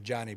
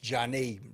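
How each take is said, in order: First: The stress is on the first syllable. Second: The stress is on the second syllable. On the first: The speaker calls it wrong. "I thought it was" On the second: The speaker calls it right. "So emphasis on the second syllable there"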